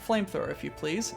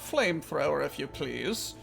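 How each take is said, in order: First: It is said in a plain, ordinary accent. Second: It is said in a posh, upper-class accent.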